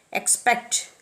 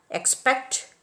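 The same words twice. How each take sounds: First: EX-pect, with the first syllable stressed. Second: Ex-PECT, stressed on the second syllable; stress on the root. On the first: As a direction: expect accented at the front. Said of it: "are accented on the first syllable". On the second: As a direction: expect accented after the prefix. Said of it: "are accented on the root". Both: Shown as a demonstration.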